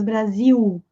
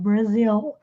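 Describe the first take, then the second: First: The final L sounds like a U. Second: The final L sounds like a clear L. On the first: "não é som de U, como no português Brasil" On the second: "o L tem som de L mesmo"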